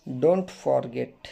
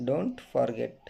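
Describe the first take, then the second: First: Very slow and a bit louder; slow emphatic model. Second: Said in the usual way. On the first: Shown as a demonstration. Teacher drills the phrase for students, slow and firm. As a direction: lean on "Don't forget." slowly and firmly. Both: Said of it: "teacher models English phrases".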